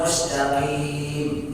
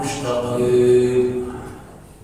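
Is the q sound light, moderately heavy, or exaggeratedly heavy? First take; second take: light; exaggerated. First: The q sound is light, with no heaviness. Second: The q sound is exaggeratedly heavy and deep. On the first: "Jangan sampai terjadi tidak tafkhim sama sekali" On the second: "Tapi berlebihan"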